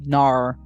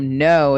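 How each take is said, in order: First: It is said like his Australian friend, 'nar'. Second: It is said in the speaker's plain accent.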